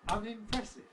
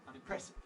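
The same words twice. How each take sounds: First: The word carries two stresses. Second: The word carries only one stress. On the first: The speaker calls it right. "It's got two stresses" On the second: The speaker calls it wrong. "they all marked it single stressed"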